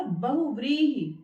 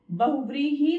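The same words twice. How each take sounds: First: बहुव्रीहि slowly, long "vree", short "hi"; correct pronunciation. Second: बहुव्रीहि with a long final "hee"; wrong pronunciation. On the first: Teacher models correct word, slow stressed व्री in बहुव्रीहि. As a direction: draw out व्री in बहुव्रीहि, brief ending. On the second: Teacher shows the error, long-ended बहुव्रीहि. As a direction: stretch the last vowel of बहुव्रीहि. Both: Shown as a demonstration. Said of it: "बहुव्रीहि नहीं होता".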